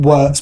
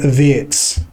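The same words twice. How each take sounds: First: The name is read the way English spelling suggests. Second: The name is said with a German-style pronunciation. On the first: The speaker calls it wrong. "I'm going to call him Wirtz because that's what it looks like" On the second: The speaker calls it right. "name is actually pronounced Florian Wirtz"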